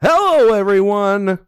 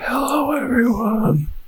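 First: It is said with very high energy. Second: It is said with moderate energy.

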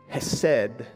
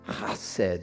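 First: The first sound is a plain, soft h. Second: The first sound is a harsh, throaty rasp. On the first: The speaker calls it wrong. "Not that would be how we pronounce it" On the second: The speaker calls it right. "I think it's more guttural than that"

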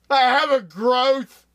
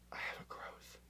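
First: It is said loudly. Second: It is said at a normal, quieter volume.

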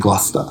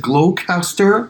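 First: It is said the way people in England say it. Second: It is said the way non-English speakers say it.

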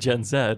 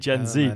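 First: The Z is said the British way. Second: The Z is said the American way. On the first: "but we'd say Gen Z" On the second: "Americans say Gen Z"

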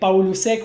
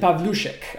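First: The surname is said with an Argentinian pronunciation. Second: The surname is said with its Polish pronunciation. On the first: "would be the Argentinian way, quote unquote" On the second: "it's actually Pavlushek, apparently"

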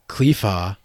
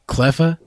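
First: The first vowel is a long ee sound. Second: The first vowel is a short e sound. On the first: "You say Cleefa?" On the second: "I say Cleffa"

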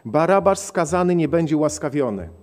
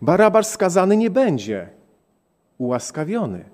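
First: It is read flatly with no inner pause. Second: There is a pause after nie. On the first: "postaram się przeczytać tak monotonnie" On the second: "ten sam przecinek postawmy w innym miejscu. ... To oznacza życie"

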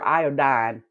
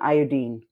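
First: It is said in a Southern US accent. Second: It is said in an English accent. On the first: "Here in the South, we're iodine" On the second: "That's how they say it in England"

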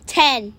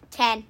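First: It is said loudly, like a game-show contestant. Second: It is said plainly, without excitement.

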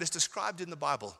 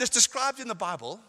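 First: It is said quietly and calmly. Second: It is said loudly and forcefully.

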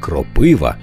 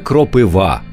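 First: The stress is on the second syllable. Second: The stress is on the last syllable. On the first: The speaker calls it wrong. "а не кропива, як часто калькують з російської" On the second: The speaker calls it right. "Саме кропива"

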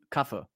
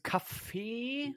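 First: It is said short and clipped, Brandenburg style. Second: It is said drawn out, not clipped.

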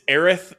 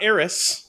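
First: The name ends with a 'th' sound. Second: The name ends with an 's' sound. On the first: The speaker calls it right. "it's Aerith" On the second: The speaker calls it wrong. "not Eris"

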